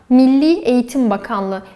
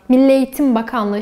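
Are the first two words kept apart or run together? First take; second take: apart; together. First: The first two words are kept apart. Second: The first two words are run together. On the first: The speaker calls it right. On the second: The speaker calls it wrong.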